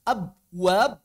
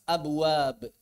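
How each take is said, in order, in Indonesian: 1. B akhir ditahan tanpa dilepas. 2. B akhir dilepas dengan pantulan ringan. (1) "Kalau nggak dilepas, ... berat" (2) "Yang enak itu dilepas"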